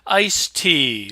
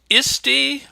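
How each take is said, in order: First: It sounds like the drink iced tea. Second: It sounds like 'isty', not like iced tea. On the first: "like the drink" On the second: "like I pronounce it in my head"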